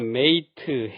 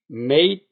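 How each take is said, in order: First: It ends with a full extra 'teu' syllable. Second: It ends clipped, with no extra syllable. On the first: The speaker calls it wrong. "쓰던 것을" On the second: The speaker calls it right. "트 소리는 빼고"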